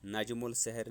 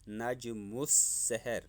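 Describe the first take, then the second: First: A clear L is said before the S. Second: The L merges into a doubled S sound. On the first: The speaker calls it wrong. "नहीं पढ़ना है" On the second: The speaker calls it right. "मीम को शमसी हरूफ सीन के साथ मुशद्दद पढ़ना है"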